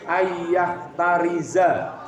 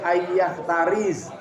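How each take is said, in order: First: The last word ends with an a vowel. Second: The last word ends on a bare z sound. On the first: The speaker calls it right. "harus dibaca ayyah tariza" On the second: The speaker calls it wrong. "tidak boleh"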